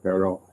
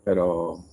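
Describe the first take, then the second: First: "pedal" said as Spanish perro, an attempted rolled r; Spanish word demo. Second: "Pero" with a light single-tap r; Spanish word demo. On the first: Learner showing the Spanish word for dog, careful pronunciation. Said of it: "I'm not saying it a hundred percent right". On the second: Learner showing the Spanish word for but, careful pronunciation. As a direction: say "Pero" with a short, unrolled r. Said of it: "if you're saying, saying butt, you say". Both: Shown as a demonstration.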